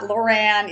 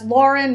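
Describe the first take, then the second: First: The name is said as Loran. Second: The name is said as Lauren. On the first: The speaker calls it wrong. "not Loran, even though you're reading it as Loran" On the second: The speaker calls it right. "that's Lauren"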